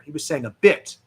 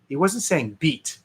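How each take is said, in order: First: "bit" said short, as in "a bit"; "bit" with a short i, not "beat". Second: "beat" said long, as in "a beat"; "beat" with a long ee, not "bit". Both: Shown as a demonstration.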